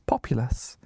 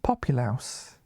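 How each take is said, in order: First: The last syllable is a short 'lus'. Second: The last syllable sounds like 'louse'. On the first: The speaker calls it right. "it's not the way it sounds like, because it's Populus" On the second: The speaker calls it wrong. "You don't say it Populaus"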